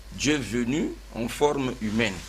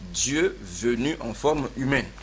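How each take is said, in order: No difference in how they are said.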